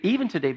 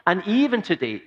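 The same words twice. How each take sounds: First: Rattled off fast at normal pitch; quick restatement. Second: Higher and louder, EVEN leaned on hard; emphatic opening. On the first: Preacher quickly repeating "even today" to the congregation. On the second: Preacher stressing "even today" to the congregation. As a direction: land "even" with weight for the listeners. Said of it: "even today, believe it or not". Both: Shown as a demonstration.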